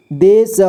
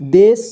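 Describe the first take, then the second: First: देश split as दे, श; syllable by syllable. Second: Said in the usual way. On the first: Shown as a demonstration. Teacher showing learners देश, sounded out in parts. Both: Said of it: "इसे पढ़ेंगे".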